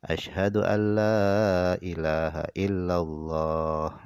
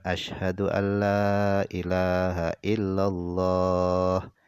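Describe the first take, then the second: Both takes have the same delivery.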